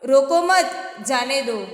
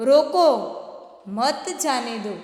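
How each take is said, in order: First: There is a pause after the second word. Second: There is a pause after the first word. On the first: Do not stop them, let them go. "उनको रोको मत जाने दो।" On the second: Stop them, do not let them go. "जाने मत देना।"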